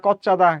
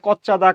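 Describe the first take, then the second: No difference in how they are said.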